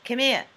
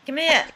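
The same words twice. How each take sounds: First: Chopped-off Brooklyn "Come here"; "Come here" in Brooklyn style, endings dropped; Brooklyn accent. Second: Louder, higher Brooklyn "Come here"; insistent Brooklyn "Come here", chopped short; Brooklyn accent. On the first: Showing how her accent confuses David, Brooklyn accent. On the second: Repeating it after David says what, insistent Brooklyn accent. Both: Shown as a demonstration. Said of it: "he can't understand my Brooklyn accent".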